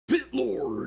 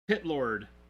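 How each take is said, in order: First: It is said in a heavy metal voice. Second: It is said in a plain normal voice.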